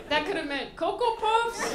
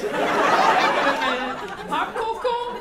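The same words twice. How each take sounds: First: Said through laughter, louder and higher; laughing. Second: Slow, much louder, laughing through it. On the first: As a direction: laugh out the joke. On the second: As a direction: drag it out while cracking up. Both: Real, not acted. Joking about the Coco mixup.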